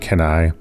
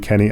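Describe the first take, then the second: First: The last syllable sounds like 'nigh'. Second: The last syllable sounds like 'knee'.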